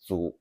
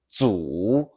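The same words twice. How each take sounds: First: The pitch stays low without rising again. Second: The pitch dips low and then rises again. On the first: "The daily use is" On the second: "The full third tone is"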